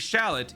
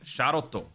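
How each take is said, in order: First: It is said with English sounds, ending on t. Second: It is said with Japanese sounds, ending on o. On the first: "It would not be shallot" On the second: "it would be sharoto"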